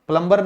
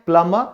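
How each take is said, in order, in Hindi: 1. 'b' की ध्वनि बीच में बोली जाती है। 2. 'b' की ध्वनि पूरी तरह छोड़ दी जाती है। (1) "प्लम्बर नहीं होता" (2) "इसको प्लम्बर कहते हैं"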